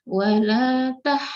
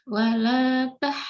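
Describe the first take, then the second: Both takes have the same delivery.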